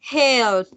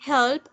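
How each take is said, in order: First: "help" stretched out long and louder; drawn-out syllables. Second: Said in the usual way. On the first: Shown as a demonstration. Teacher showing students why help has two syllables, drawn out. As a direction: draw out "help" loudly to sound like two beats. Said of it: "help tiene dos sílabas". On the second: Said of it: "Porque tiene".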